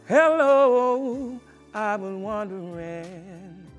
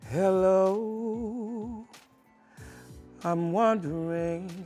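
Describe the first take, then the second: First: It is said in a happy tone. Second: It is said in a sad tone.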